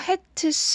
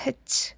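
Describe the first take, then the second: First: The plural ending is drawn out, not shortened. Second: The plural ending is short and blended in. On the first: The speaker calls it wrong. "hats 하지 않고요" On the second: The speaker calls it right. "hats를 줄여서 hats"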